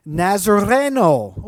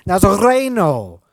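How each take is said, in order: First: Slow "Nazareno" with a rolled R. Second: "Nazareno" louder, with a rolled R; rolled R, emphatic. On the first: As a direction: roll the R in "Nazareno", slowly and carefully. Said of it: "Ooh, I did it there". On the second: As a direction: belt out "Nazareno" with a trilled R. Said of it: "Roll your R's at home". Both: Shown as a demonstration.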